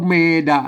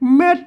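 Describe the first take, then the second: First: The word is said as two open syllables. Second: The word is said as one short closed syllable. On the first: The speaker calls it wrong. "ไม่ใช่เมดะนะครับ" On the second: The speaker calls it right. "อ่านว่าเม็ดนะครับ"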